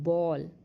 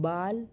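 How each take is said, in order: First: The vowel is a rounded 'aw' sound. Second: The vowel is an open 'ah' sound. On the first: The speaker calls it right. "वहाँ पे हम ओ करके इसका उच्चारण करेंगे" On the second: The speaker calls it wrong. "ऐसे करके नहीं पढ़ेंगे"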